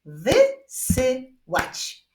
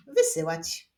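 First: Very slow, louder separated syllables; word broken into spaced beats. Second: Said in the usual way. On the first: Shown as a demonstration. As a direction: clap out each syllable firmly. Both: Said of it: "Tym razem wyklaszczmy sylaby w wyrazie wysyłać".

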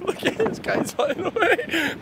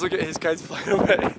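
First: Laughing through the words, slower; chuckling as the kites fly off; amused laugh while watching kites blow away. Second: Said in the usual way. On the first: Real, not acted.

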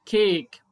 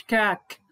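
First: كيك said slowly with the long a of its name; teacher demos the right reading كيك, drawn out. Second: كاك said with a short flat a like cat; teacher demos the wrong reading كاك. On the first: Teacher shows pupils the correct long vowel, slow demo. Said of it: "قلنا كيك". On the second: Teacher shows pupils the wrong vowel, plain demo. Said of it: "ما قلناش كاك". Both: Shown as a demonstration.

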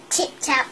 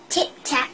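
No difference in how they are said.

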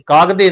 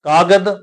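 First: ਕਾਗਦੇ with a vowel after the "d"; voiced final vowel. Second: ਕਾਗਦ ending on a bare "d"; silent final sihari. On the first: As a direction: say ਕਾਗਦੇ as kaag-de, the mistaken way. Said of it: "ਇੱਥੇ ਸਿਹਾਰੀ ਉਚਾਰਨ ਨਹੀਂ ਕਰਨੀ". (ਕਾਗਦੇ, ਦੱਦੇ ਦੀ ਸਿਹਾਰੀ ਉਚਾਰ ਕੇ) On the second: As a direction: say ਕਾਗਦ as kaa-gad, no vowel after it. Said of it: "ਸਿਹਾਰੀ ਉਚਾਰਨ ਨਹੀਂ ਕਰਨੀ". (ਕਾਗਦ, ਸਿਹਾਰੀ ਉਚਾਰੇ ਬਿਨਾਂ) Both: Shown as a demonstration.

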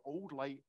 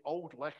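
First: Put-on "old light" in plain English, silent gh. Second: Put-on "old licht" with Scots guttural ch in licht. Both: Shown as a demonstration. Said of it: "or old light".

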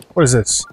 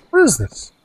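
First: Murmured low question to oneself; low-pitched, casual puzzlement; low curious question. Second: Higher curious question. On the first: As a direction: ask it low and offhand. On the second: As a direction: question starting high and dropping sharply. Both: Real, not acted. Same question repeated while exploring.

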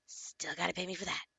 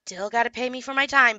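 First: Muttered repeat. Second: Said in the usual way. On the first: Real, not acted.

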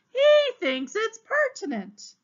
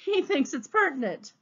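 First: High, slow, sneering repeat of "He thinks it's pertinent"; mocking echo. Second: Said in the usual way. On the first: The exasperated captain mocks Leo Matinet in a high, slow sneer. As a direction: parrot his words back in a high, slow sneer.

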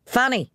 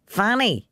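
First: Higher, commanding call; peremptory call. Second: High call up the stairs. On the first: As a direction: demand she answer now. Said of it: "he said peremptorily". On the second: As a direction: call her from below. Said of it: "he called up the stairs". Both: A narrator's reading.

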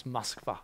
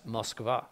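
First: Moskva with the stress on the last syllable, mos-KVA; Russian stress on Moskva. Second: Moskva with the stress on the first syllable, MOS-kva; wrong stress on Moskva. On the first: Teacher showing the Russian stress of Moskva, mos-KVA. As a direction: land the weight on -kva in Moskva. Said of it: "the accent is here". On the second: Teacher giving the mistaken English stress on Moskva, MOS-kva. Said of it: "you would say". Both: Shown as a demonstration.

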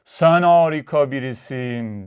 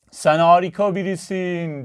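First: Slow, stretched echo, mildly raised; mountain echo. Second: Lightly raised, sustained calling voice; called out. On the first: Mountain returns the father's praise, drawn-out echo. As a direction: draw it out evenly like a returning echo. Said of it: "Karşıki dağdan bir ses geldi". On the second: Father calls out to the opposite mountain, calling voice. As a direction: call it out across a distance. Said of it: "diye bağırdı". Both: A narrator's reading.

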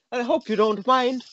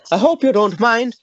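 First: Said in the usual way. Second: Louder take. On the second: Shown as a demonstration.

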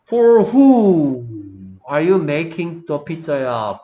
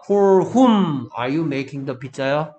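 First: Loud, drawn-out "who" in "For who"; stress on WHO. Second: "whom" held long with a closing hum on m; "whom" stretched out and firmly pressed; stress on WHOM. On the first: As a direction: hit "who" hard and hold it. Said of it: "라고 물어볼 때". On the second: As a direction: lean loudly on "whom", finishing the m clearly. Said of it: "For whom밖에 안 돼". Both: Shown as a demonstration.

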